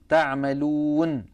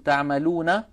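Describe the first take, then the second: First: The word ends on a bare n sound. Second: The final n is followed by a short vowel. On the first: This is how it is read when stopping on the word. "بل تقف بالسكون، فتسكن هذه النون عند الوقف" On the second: This is how it is read when the reading continues. "العرب لا تقف على متحرك ... ولكنها في الوصل متحركة"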